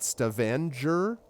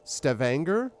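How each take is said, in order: First: The g is said as a soft j. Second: The g is said as a hard g. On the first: "softer J" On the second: "Like hard G"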